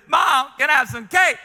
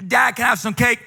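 First: Put-on dramatic kid asking. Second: Said in the usual way. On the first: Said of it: "he very dramatic". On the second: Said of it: "goes to me".

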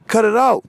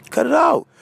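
First: Higher, pleading cut it out; exasperated plea. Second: Even higher, insistent cut it out. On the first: To people killing each other, higher pleading stop. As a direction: beg them to stop. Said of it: "telling people to stop". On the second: To people killing each other, higher insistent stop. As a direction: say it again, climbing higher. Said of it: "repeats the plea". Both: Real, not acted.

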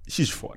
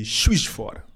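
First: Breathy whisper, much softer; unvoiced murmured repeat; whispered aside. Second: Said in the usual way. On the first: Real, not acted. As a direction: whisper the name to himself. Repeating the city name aside.

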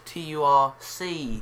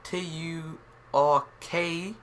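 First: T U R C spelled letter by letter, ending on C. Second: T U R K spelled slowly, letter by letter, ending on K. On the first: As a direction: spell out T, U, R, then C to show the difference. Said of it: "But the Turkey here is". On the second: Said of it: "the Turkey by Afghanistan, that's". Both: Shown as a demonstration.

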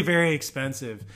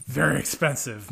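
First: Said in the usual way. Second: Mister Dink. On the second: Acted. Quoting a cartoon character mid-explanation, playful impression. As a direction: lightly imitate a cartoon neighbor savoring the words. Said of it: "Mister Dink from".

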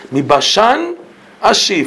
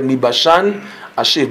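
First: "Mi Bashan" lifted high with a rise on Bashan, then ashiv falls; emphatic quote. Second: Said in the usual way. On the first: Shown as a demonstration. Teacher stressing the verse to his listeners, raised high. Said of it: "From Bashan".

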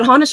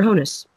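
First: Honus said as HAH-nus; first-syllable AH. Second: Honus said as HOH-nus; first-syllable OH. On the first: Asking co-host which name is right, Honus as HAH-nus. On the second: Offering co-host the other option, Honus as HOH-nus. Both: Shown as a demonstration. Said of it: "Is it Honus or Honus".

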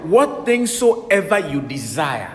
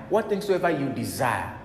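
First: Slow, loud, weighty scripture reading; intoned scripture. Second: Said in the usual way. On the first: Acted. Preacher stressing the key verse to the church, slow and loud. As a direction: stretch every word of the verse.

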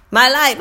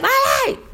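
First: Said in the usual way. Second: High mock kid shout; mimicked schoolboy holler, pitched up; imitating yelling student. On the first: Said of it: "I'll just start saying". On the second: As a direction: yell the repeat like an eager pupil. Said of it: "walking around the room yelling".

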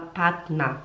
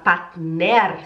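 First: Partner said as "patna", R dropped; softer, low model of partner ending in -NA; light final A. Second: Partner with a full -NER ending; wrong final R. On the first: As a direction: end partner on a light, falling A. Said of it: "Você puxa um leve A". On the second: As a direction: sound the E and R at the end of partner. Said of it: "Em vez de você falar partner". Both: Shown as a demonstration.

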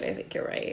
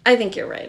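First: Soft unvoiced whisper of agreement. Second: Said in the usual way. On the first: Real, not acted. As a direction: breathe the repeat as a hushed aside. Repeats agreement, then whispers.

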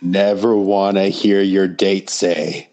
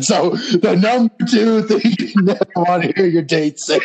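First: Drawn-out, deliberate list-title delivery; slow announced punchline setup. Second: Much higher, put-on announcing voice; high-pitched mock announcement. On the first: Pretend. Cohost completes the host's story setup, slow and drawn out. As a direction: stretch each word out at normal pitch. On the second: Cohost redoes the setup as number two, high mock announcement. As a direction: pitch the whole title way up.

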